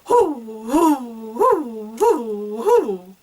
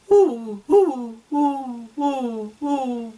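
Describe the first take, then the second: First: The sounds are punched hard from the diaphragm. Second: The sounds are light, without strong diaphragm push.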